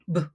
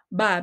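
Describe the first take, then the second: First: The consonant is said alone without a vowel. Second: The consonant is followed by a vowel sound. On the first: The speaker calls it right. "ang tunog na ating ituturo ay b" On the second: The speaker calls it wrong. "Hindi siya ba"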